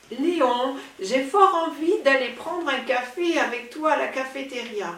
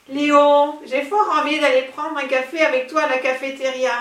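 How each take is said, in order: First: Languid voice. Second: Breathy vintage purr. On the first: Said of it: "Surtout ne pas oublier la voix langoureuse". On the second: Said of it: "Non, ça ne va pas". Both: Acted.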